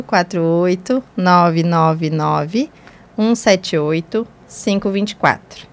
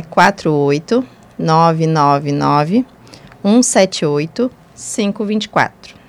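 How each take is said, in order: First: Slow, spaced-out phone number repeat; slow and deliberate. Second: Slow, spaced-out phone number; slow and deliberate. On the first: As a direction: repeat each digit slowly and clearly. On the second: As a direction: read each digit slowly and clearly. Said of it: "vou falar bem pausadamente". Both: Real, not acted.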